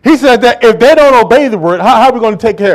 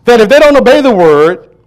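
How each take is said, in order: First: Preaching at force. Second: Don't lifted with a rise; stress on don't. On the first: Real, not acted. Preacher reads verse loudly. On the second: Shown as a demonstration. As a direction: lean on don't and let it climb. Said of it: "Watch this".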